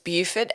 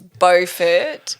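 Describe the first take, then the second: First: The first syllable sounds like the start of 'beautiful'. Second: The first syllable is unlike the start of 'beautiful'. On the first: This is the French pronunciation. "as in beautiful Beaufort, because that's the French pronunciation" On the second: This is the English pronunciation. "in North Carolina, it's Beaufort because it's the English um, pronunciation"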